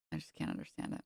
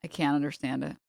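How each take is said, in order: First: Breathy whispered repeat. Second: Said in the usual way. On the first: Real, not acted. Repeats line, drops to whisper.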